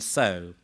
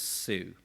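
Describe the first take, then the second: First: It is said with its usual pronunciation. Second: It is sounded out by general spelling rules.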